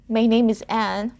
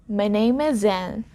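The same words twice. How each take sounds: First: Each word is said separately, without linking. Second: Final consonants are carried into the next vowels. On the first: "instead of saying my name is" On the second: "I blended the sound from name, the M sound there, and the first sound in is"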